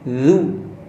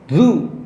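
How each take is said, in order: First: The tongue touches the teeth before the lips round. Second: The lips round immediately, skipping tongue placement. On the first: The speaker calls it right. "taruh dulu di makhraj, ujung lidah ketemu ujung gigi atas" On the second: The speaker calls it wrong. "jangan langsung monyong"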